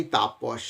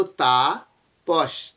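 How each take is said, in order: First: Said in the usual way. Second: Tapas said slowly as তা and পস with a small break; split into syllables. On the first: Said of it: "যদি আমরা উচ্চারণ করি". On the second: Shown as a demonstration. Teacher shows students the syllables তা and পস, slow and split. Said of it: "তাহলে বলবো".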